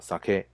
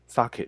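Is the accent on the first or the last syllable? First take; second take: last; first. First: The accent falls on the last syllable. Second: The accent falls on the first syllable. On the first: It means rice wine. The speaker calls it right. "记得重音要放在后面，叫sake" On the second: It means salmon. The speaker calls it wrong. "大家常常有时候会讲sake，其实是不对的 … 如果你讲sake 的话，其实指的是鲑鱼"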